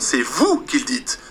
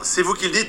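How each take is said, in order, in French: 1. Elle est dite avec scepticisme, comme une riposte. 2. Elle est dite de façon neutre, comme un titre. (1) "mais l'intonation change" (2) "le nom change pas"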